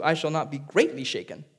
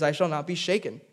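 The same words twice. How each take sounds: First: "greatly" picked out as the key word; stress on GREATLY. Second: Said in the usual way. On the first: Shown as a demonstration. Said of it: "it says in verse two". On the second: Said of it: "now in verse six".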